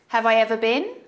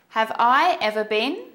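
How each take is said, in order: First: It is said at a faster, fluent pace. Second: It is said at a slower, careful pace.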